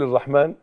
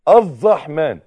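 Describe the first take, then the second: First: The r sound is single, not held. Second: The r sound is doubled, held longer. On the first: The speaker calls it wrong. "من غير يبقى كده غلط لحن" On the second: The speaker calls it right. "بشده"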